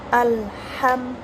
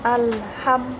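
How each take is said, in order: The two takes are said the same way.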